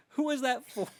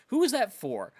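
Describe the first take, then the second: First: Much higher squeaky repeat; squeaky disbelief. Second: Higher, louder disbelieving shout; incredulous shout. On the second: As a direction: yell it in disbelief. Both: Shown as a demonstration.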